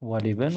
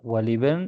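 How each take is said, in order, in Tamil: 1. L-க்கு i உயிர் வரும், bin உடன் இணையும். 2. L-க்கு i உயிர் வரும், bin உடன் இணையும்.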